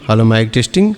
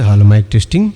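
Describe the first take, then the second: First: The middle frequencies of the voice are boosted. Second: The low bass frequencies of the voice are boosted. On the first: "అలాగే ఈ రెండు mid" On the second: "full bass quality వస్తుందండి"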